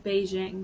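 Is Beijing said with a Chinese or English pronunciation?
English. It is said with an English pronunciation. Listeners in China would not recognize the place. The speaker calls it wrong. "they'd be like, what?"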